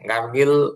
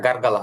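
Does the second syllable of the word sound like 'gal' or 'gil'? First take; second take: gil; gal. First: The second syllable has an 'i' vowel. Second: The second syllable has an 'a' vowel. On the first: The speaker calls it wrong. "গার্গিল হবে না" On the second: The speaker calls it right. "এটা উচ্চারণটা গার্গাল হবে"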